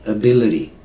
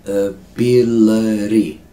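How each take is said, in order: First: Said in the usual way. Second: "Ability" slow and loud, each syllable held. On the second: Shown as a demonstration. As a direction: stretch "Ability" out for learners. Teacher slows word into syllables.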